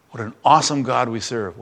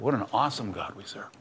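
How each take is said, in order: First: Said in the usual way. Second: Much softer, reverent repeat; hushed echo. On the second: Real, not acted. Preacher repeating his praise, much softer and reverent. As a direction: let it fall to a hushed awe.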